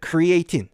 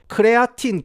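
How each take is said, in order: First: It sounds like English 'cree-a-teen', four syllables. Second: It sounds like Korean 'keu-re-a-tin', four syllables. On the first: "제가 입에 크리에이틴이 붙어가지고" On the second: "한국에서는 이제 크레아틴이라고 합니까?"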